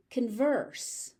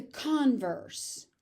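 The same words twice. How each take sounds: First: "converse" stressed on the second syllable, con-VERSE; weak first vowel in "converse", stress on VERSE; verb stress. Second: "converse" stressed on the first syllable, CON-verse; noun stress. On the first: Teacher showing the verb form, second-syllable stress. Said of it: "being used as a verb". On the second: Teacher showing the noun form, first-syllable stress. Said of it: "being used as a noun". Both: Shown as a demonstration.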